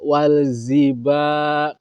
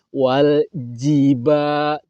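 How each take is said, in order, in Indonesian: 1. Konsonan tengahnya bunyi z. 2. Konsonan tengahnya bunyi j. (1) "Kalau ziba itu bukan jim tapi za" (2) "Waljiba, tidak walziba"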